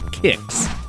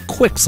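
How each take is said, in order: First: The name begins with a plain 'k' sound. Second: The name begins with a 'kw' sound. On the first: The speaker calls it right. "it's actually pronounced Kicks" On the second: The speaker calls it wrong. "That's wrong"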